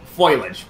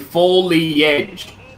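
First: The word starts like 'foil', in two syllables. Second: The word starts like 'foe-lee', in three syllables. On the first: The speaker calls it wrong. "That's what you said. One is basically foil" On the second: The speaker calls it right. "It's supposed to be foliage"

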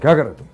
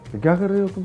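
First: It is said with harsh, city-style anger. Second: It is said with mild, innocent anger.

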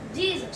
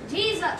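First: It is said plainly, with little energy. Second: It is said with strong, excited energy.

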